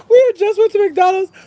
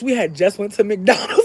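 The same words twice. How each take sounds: First: Loud, very high mock-tearful wail; high-pitched, tearful-sounding protest, played for laughs; comic wail. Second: Said in the usual way. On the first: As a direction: wail it like a hammed-up injustice.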